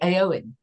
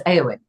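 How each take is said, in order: First: The stress is on the second syllable. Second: The stress is on the first syllable. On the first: This is how English speakers would usually say it. The speaker calls it wrong. "the emphasis would usually be on the second syllable" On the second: This is how they were told to say it. The speaker calls it right. "But it wasn't that"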